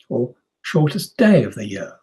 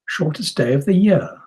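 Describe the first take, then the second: First: The main stress falls on "day". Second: The main stress falls on "year". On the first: The contrast is between days and nights. "That's possible if we're thinking about nights as well" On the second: The contrast is about years. "that's possible if we're thinking about years"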